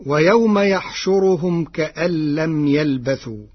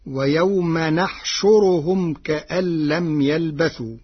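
First: يحشرهم begun with ya, yaħshuruhum; reading with ya. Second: نحشرهم begun with nun, naħshuruhum; reading with nun. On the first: Teacher quoting the usual reading, يحشرهم with ya. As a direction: start يحشرهم with a y sound. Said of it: "قرأ ورش كلمة يحشرهم". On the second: Teacher showing the Warsh reading, نحشرهم with nun. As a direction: start نحشرهم with an n sound. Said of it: "بالنون بدل الياء". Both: Shown as a demonstration.

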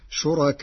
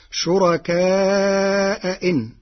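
First: شركاءهن with the second hamza softened between hamza and vowel; eased second hamza. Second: شركاء إن with both hamzas clear; two clear glottal stops in شركاء إن; full hamza. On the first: Teacher showing the Warsh easing of the hamza. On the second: Teacher quoting the usual reading with full hamza. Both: Shown as a demonstration. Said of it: "بتسهيل الهمزة الثانية بين بين".

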